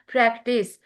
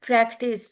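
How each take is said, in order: Both takes have the same delivery.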